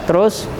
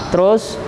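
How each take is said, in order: No difference in how they are said.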